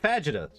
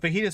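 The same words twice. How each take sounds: First: The word is pronounced in an odd, playful way. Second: The word is pronounced in the usual way. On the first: "It's like a really fun way to say it" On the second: "she says it normally"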